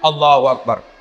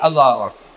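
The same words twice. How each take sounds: First: It is said with far too much energy. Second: It is said sleepily, without energy.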